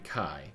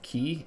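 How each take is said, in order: First: The vowel sounds like the word 'sky'. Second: The vowel sounds like the word 'key'. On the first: "can be pronounced both ki and kai" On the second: "can be pronounced both ki and kai"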